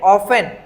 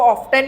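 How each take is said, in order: First: The t sound is left silent. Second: The t sound is clearly pronounced. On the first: "ऑफन बोलोगे तो टी silent है" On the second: "ऑफ्टन बोलोगे तो टी का pronunciation करोगे"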